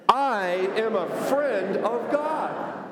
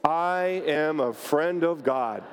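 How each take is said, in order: First: It is said forcefully, with strong conviction. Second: It is said plainly, with ordinary energy.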